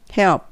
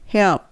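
Both takes have the same delivery.

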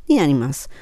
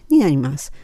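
The two takes are said the same way.

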